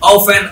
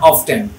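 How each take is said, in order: First: The word is said without a t sound. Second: The word is said with a t sound. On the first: "আমি এটাকে অফেন বলি" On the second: "কেউ যদি অফটেন বলে no problem"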